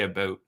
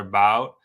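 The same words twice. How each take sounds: First: It is said in a Canadian accent. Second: It is said in an American accent.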